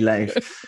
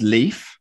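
First: The name does not sound like leaf. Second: The name sounds like the word leaf. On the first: The speaker calls it right. "no, it's actually Leif" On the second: The speaker calls it wrong. "The commonest is Leif"

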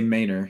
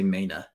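First: The word ends with a clear r sound. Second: The word ends in a vowel with no r. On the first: This is how the speaker talks now after moving south. "now I'd say Mainer" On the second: This is the northern way the speaker has mostly lost. "I wouldn't say Maina"

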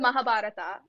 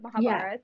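First: The name ends with a final 'a' vowel. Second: The name ends without a final 'a' vowel. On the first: This is the South Indian way of saying it. "they add an A at the end of names" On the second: This is the North Indian way of saying it. "not the Mahabharat"

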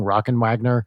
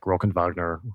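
First: The name is said with American English sounds. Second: The name is said with German sounds. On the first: "if it's an Americanized thing" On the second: "or if it's German, it's like"

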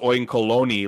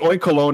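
First: The ending sounds like 'baloney'. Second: The ending does not sound like 'baloney'. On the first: "But Jules thought it was Oinkalone, like baloney" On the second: "Because it's Oinkalone as in like, okay, because the if you read the Pokedex entry, the pig produces like smells and perfumes"

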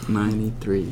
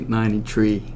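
First: The number ends with a th sound, three. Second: The number ends with a plain t sound, tree. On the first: The speaker calls it right. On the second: The speaker calls it wrong.

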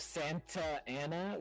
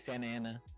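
First: The T sound in Santa is clearly pronounced. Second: The T sound in Santa is dropped. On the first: "instead of Santa Ana" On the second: "we don't say their T's"

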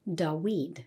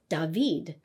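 First: The middle consonant is a W sound. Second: The middle consonant is a V sound. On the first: This is the likely ancient Hebrew pronunciation. "in ancient Hebrew, it probably sounded more like Dawid" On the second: This is the modern Hebrew pronunciation. "which has a V sound, you'd pronounce it as David"

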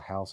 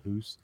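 First: The vowel sounds like 'ow'. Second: The vowel sounds like 'oo'. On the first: "he calls a house a hoose" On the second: "he calls a house a hoose"

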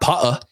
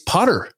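First: The R sound is dropped entirely. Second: The R sound is clearly pronounced. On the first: The speaker calls it wrong. "It's not Pa-a" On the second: The speaker calls it right. "the hard R that is very common in American English"

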